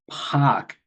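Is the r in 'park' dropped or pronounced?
dropped. The r is dropped, Boston style. "when it was Park"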